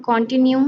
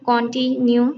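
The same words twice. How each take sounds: First: Said in the usual way. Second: "continue" broken as con-ti-nue; split into syllables. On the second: Shown as a demonstration. Teacher giving an example of three syllables, broken apart. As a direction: say "continue" in separated pieces. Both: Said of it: "Some have three syllables".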